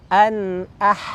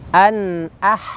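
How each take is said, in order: No difference in how they are said.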